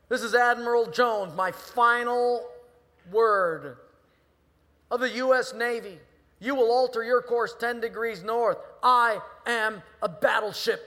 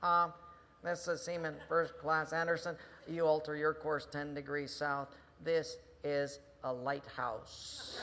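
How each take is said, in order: First: Furious high, very loud bellow; outraged commander roaring across the water; admiral on megaphone. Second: Calm, deadpan reply, slowing at the end; mild sailor holding his ground; lightly voiced seaman. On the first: Acted. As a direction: lay down a final order at full shout. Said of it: "he gets back on the megaphone". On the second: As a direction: deliver the punchline unruffled and slowly. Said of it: "he hears this voice".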